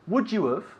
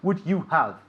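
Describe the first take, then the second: First: The words are reduced and run together. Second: Each word is said fully and separately. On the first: The speaker calls it right. "that's how we say it" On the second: The speaker calls it wrong. "We don't say"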